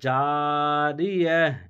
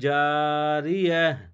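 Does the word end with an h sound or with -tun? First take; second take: h sound; h sound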